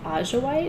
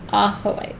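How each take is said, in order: First: The j is said like an English j. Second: The j is said like an English h. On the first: The speaker doesn't know Spanish. The speaker calls it wrong. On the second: It follows the Spanish pronunciation. The speaker calls it right.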